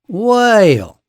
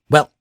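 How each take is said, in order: First: The vowel is drawn out, gliding through three positions. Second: The vowel is short and quick. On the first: "in the South, that word becomes whale" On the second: "it's pronounced quickly"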